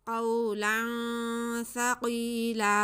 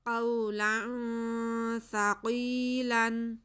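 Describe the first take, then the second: First: The last word ends with a long a. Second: The last word ends with an n sound. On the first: The reader stops at this word. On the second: The reading continues without stopping.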